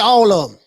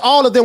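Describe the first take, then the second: First: It is said in a reduced Southern accent. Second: It is said in a standard, careful accent. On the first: "We say all of them" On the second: "we don't say all of them"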